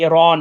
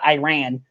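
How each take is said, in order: First: Iran is said in a Persian-style way. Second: Iran is said in an anglicized way. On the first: The speaker calls it right. "you make sure you say Iran" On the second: The speaker calls it wrong. "not Iran"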